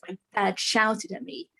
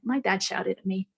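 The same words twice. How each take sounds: First: It is said with strong emotional energy. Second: It is said flatly, without emotional energy. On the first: The memory still holds emotional charge. "I'm putting energy into the words" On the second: The memory no longer holds emotional charge. "There's no more charge left in the words"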